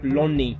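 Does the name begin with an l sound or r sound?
l sound. The name begins with an l sound. "they will pronounce him like Lonnie"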